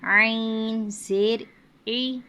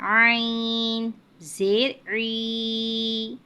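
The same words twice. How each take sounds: First: The final vowel is kept short. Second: The final vowel is stretched out long. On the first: The speaker calls it right. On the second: The speaker calls it wrong.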